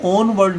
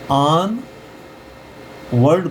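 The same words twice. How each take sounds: First: ऑन वर्ड as "OHN-vard", round O; rejected O reading. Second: ऑन वर्ड as "AAN ... vard", short second vowel; open AA reading. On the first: Teacher shows what not to read, O-sounded ऑन वर्ड. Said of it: "ऑन वर्ड नहीं पढ़ेंगे". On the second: Teacher models for students, ऑन वर्ड as aan-vard. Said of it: "पढ़ेंगे". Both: Shown as a demonstration.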